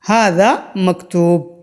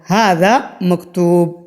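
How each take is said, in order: The two takes are said the same way.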